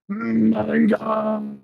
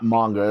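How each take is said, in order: First: The word is growled and yelled loudly. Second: The word is said in a plain, normal voice. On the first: The speaker calls it right. "The growling and the yelling is necessary" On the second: The speaker calls it wrong. "what's not manga"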